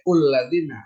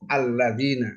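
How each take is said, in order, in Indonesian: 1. Kata ini diawali vokal u. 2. Kata ini diawali vokal a. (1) "nggak boleh ulladzina" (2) "harus fathah alladzina"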